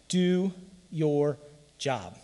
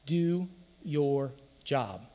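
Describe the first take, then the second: First: Slow, deliberate answer to his own question; preacher answering how you win; Belichick's motto. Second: Slow, weighty quoting of a coach's motto; preacher drawing out a coach's famous line; Belichick's motto. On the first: Slow and deliberate. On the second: Slow and weighty. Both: Retold or imitated. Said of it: "the great philosopher Bill Belichick".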